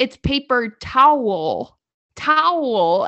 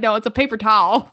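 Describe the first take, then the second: First: TOWEL slowly split into tow-el, loud; four-syllable version. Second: TOWEL as one loud syllable, "tal"; three-syllable version. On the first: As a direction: stretch "towel" into two clear syllables. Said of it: "four syllable, like, words". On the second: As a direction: insist on "towel" squashed to "tal". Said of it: "No, that's three". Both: Retold or imitated.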